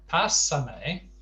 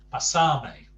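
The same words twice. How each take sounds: First: Pásame with the first syllable PA hit hard; stress on first A. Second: Pasarme with the middle syllable SAR hit hard and loud; stress on penultimate syllable. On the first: Teacher contrasting two words for learners, Pásame stressed on PA. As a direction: punch PA at the start of Pásame. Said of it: "has the stress on the first A". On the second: Teacher contrasting two words for learners, Pasarme stressed on SAR. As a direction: punch SAR in Pasarme, then fall. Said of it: "penultimate syllable". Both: Shown as a demonstration.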